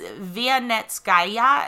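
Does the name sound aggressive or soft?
soft. The name is said softly and casually. "I'm not going to say it like that because it sounds very aggressive"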